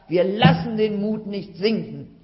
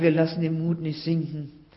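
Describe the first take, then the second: First: It is said loudly, firmly and clearly. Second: It is said softly and hesitantly. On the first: The speaker is confident and encouraged. "kräftiger und laut und deutlich zu sagen" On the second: The speaker only half believes it. "Vielleicht nur ein bisschen zaghaft"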